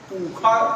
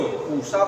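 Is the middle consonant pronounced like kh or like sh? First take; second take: kh; sh. First: The middle consonant sounds like kh. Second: The middle consonant sounds like sh. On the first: Some teaching lineages recite the sound this way. "उस मूर्धन्य सा को कोई खा का प्रयोग करता है" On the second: Other teaching lineages recite the sound this way. "कोई उसी को पूषा बोलता है"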